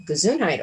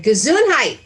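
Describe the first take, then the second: First: Said in the usual way. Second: "Gesundheit" called out loud and bright, falling at the end; husband's hearty blessing. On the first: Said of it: "I'm like". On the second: Retold or imitated. Husband walks in blessing a sneeze, loudly. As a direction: boom the word "Gesundheit" like a greeting. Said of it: "He came in and he said".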